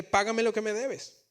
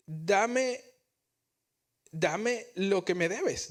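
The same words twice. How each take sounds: First: A higher, forceful mock demand; choking demand. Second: Grab him and insist on the money; demanding servant. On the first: The servant throttling his coworker for the debt, forceful. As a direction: squeeze the words out while choking him. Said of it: "que lo ahogaba". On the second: Retold or imitated. The forgiven servant demanding his coworker pay, harsh.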